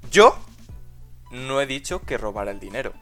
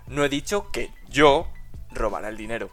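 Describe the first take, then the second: First: The stress is on the word dicho. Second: The stress is on the word yo.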